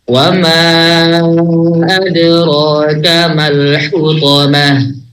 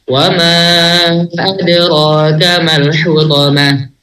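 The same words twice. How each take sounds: First: It is recited at a slow tempo. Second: It is recited at a medium tempo. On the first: "dengan tempo tahqiq" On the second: "Kalau tadwir lebih cepat dia"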